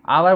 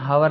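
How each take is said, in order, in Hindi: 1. इस शब्द की शुरुआत स्वर ध्वनि से होती है। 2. इस शब्द की शुरुआत 'h' ध्वनि से होती है। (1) "आवर बोलते हैं" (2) "हावर नहीं बोलते"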